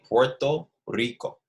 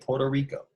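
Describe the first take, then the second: First: It is said with a Spanish accent. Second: It is said with an American accent.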